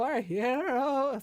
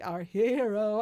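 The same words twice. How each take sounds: First: Drawn-out robotic autotune, higher; slow autotune cyborg voice. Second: Robotic autotuned voice, chanted; autotune cyborg voice. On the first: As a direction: stretch it slowly like an autotuned cyborg. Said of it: "So I can sound like a cyborg". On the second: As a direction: sing it like a heavily autotuned cyborg. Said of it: "really aggressive autotune". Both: Shown as a demonstration.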